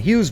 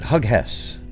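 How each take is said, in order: First: The name is said as one syllable. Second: The name is split into two syllables. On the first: The speaker calls it right. "the name Hughes" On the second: The speaker calls it wrong. "you immediately pronounce it Hug Hess"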